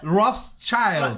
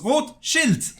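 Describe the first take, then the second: First: It is pronounced with an English-style pronunciation. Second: It is pronounced with a German-style pronunciation. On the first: Other people say it this way. The speaker calls it wrong. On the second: It means red shield. The speaker calls it right. "no, it's Rothschild. It's Red Shield"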